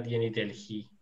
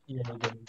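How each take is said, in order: First: "yeni Delhi" read literally as spelt, sounding the h; literal reading pronunciation. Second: "yeni Delhi" as Turks usually say it; Turkish everyday pronunciation. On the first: Shown as a demonstration. Teacher shows the literal reading, spelling pronunciation. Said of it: "si lo leyéramos literalmente". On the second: Retold or imitated. Teacher reports what Turks always say, Turkish everyday pronunciation. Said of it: "los turcos siempre dicen".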